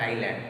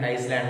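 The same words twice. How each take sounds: First: Said in the usual way. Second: "Iceland", the S clearly pronounced; island with S sounded. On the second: Shown as a demonstration. Teacher showing children a pronunciation of island, S sounded. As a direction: say "Iceland" with an audible S before the L. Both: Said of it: "Pronunciation is Iceland, not island".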